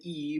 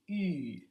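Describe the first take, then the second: First: The vowel is said with spread, unrounded lips. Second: The vowel is said with tightly rounded lips. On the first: "if I took E and said E" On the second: "but I rounded my lips, I would get E"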